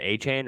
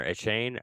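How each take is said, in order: First: Achane said "AY-chain", opening on a long A; AY-chain pronunciation. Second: Achane said "uh-CHAIN", opening on a short schwa; uh-CHAIN pronunciation. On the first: Weighing two ways to say a player's name, "AY-chain" for Achane. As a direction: say Achane with a clear "AY" first. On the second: Offering co-host the other way to say it, questioning "uh-CHAIN" for Achane. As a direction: reduce the first vowel of Achane to "uh". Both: Shown as a demonstration. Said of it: "is it Achane or Achane?".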